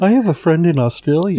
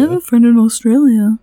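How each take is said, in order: First: Bright mock Aussie twang, quick; hammy Aussie accent; Australian accent. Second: Co-host echoes the mock Aussie line, louder; playful Aussie impression; Australian accent. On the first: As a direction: put on a cheesy Australian accent. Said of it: "He's heard me do bad accents". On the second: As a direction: copy the Australian accent back, hammy.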